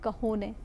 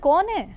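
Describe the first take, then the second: First: The word is said with an h sound. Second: The word is said without an h sound. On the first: The speaker calls it right. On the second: The speaker calls it wrong.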